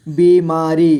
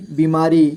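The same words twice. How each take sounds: First: बीमारी split into बी, मा, री; syllable by syllable. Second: Said in the usual way. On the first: Shown as a demonstration. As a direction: draw out each syllable of बीमारी. (बीमारी को तोड़कर: बी, मा, री) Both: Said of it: "थोड़ा fast पढ़ेंगे".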